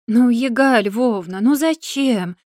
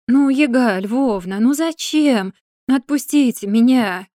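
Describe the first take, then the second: First: Slow, whining plea, stretching the ну; girl begs the old witch, drawn-out plaintive whine; plaintive drawl. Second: Slow, tearful plea rising to a begging cry; tearful pleading. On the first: Girl reproaching Yaga for the note, a slow plaintive whine. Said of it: "жалобно протянула девушка". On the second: Captive girl begging Yaga to free her, slow tearful wail. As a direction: beg the witch to let her go, close to tears. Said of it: "от Сашкиной истерики". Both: A narrator's reading.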